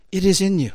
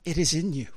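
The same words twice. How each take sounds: First: Louder, driving it home on IS; emphatic repeat. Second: Said in the usual way. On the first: Shown as a demonstration. Preacher repeating the promise to the church, emphatic and louder. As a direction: hit "is" hard, louder.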